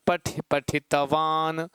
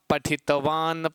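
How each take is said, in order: First: Slow sound demo. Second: Said in the usual way. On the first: Shown as a demonstration. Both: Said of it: "तो इसको कहोगे क्या?".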